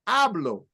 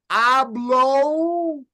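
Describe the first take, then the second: First: The vowels are short and crisp. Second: The vowels are stretched out long. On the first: The speaker calls it right. "You don't extend the sounds. So you would say" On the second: The speaker calls it wrong. "Extending the sounds"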